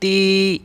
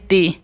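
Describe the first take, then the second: First: The vowel is long and drawn out. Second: The vowel is short, not drawn out. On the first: "खड़ी ज़ेर को भी खींच कर पढ़ेंगे" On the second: "ज़ेर को भी नहीं खींचेंगे"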